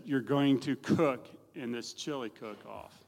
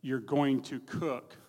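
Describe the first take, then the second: First: Slow, deliberate order, stressing going; insistent daughter. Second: Slow, firm insistence on going; insistent daughter. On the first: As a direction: tell him he is doing it, no arguing. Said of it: "She said". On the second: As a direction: lay it down as an order, not a question. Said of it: "Not saying asking, she's saying". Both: Retold or imitated.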